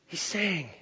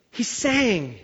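First: Much softer, downcast; sad and quiet. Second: Said in the usual way. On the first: Shown as a demonstration. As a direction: let it sink like a man in sorrow. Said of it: "when he was down". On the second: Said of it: "When he was excited".

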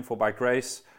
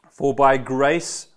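First: Said in the usual way. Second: "For by grace" drawn out slowly and loud, rising on "by"; slow, loud model reading of "For by grace"; slow emphatic reading. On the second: Shown as a demonstration. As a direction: lean into "For by grace" slowly and loudly, as a model for the room. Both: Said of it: "Mark, say your own name".

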